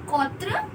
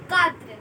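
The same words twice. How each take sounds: First: QUATRE with a rounded aw vowel, kawtre; mispronounced quatre. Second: QUATRE with open ah, katr; correct French quatre. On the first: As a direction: say QUATRE wrongly as KAW-truh, questioning rise. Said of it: "It is not quatre". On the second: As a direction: say QUATRE as KA-truh, falling close. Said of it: "It is quatre". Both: Shown as a demonstration.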